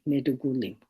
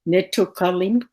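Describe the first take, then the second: First: The middle consonants are voiced d and g. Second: The middle consonants are voiceless t and k. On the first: This is how it is said in the speaker's own language. "in our language it's it's a D and a G" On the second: This is how an English speaker would say it. "in English you would probably pronounce it"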